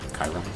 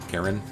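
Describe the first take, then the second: First: The first syllable sounds like 'kai'. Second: The first syllable sounds like 'care'. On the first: The speaker calls it right. "Pronounce it with more of a Kai than an er" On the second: The speaker calls it wrong. "It's definitely not Karen"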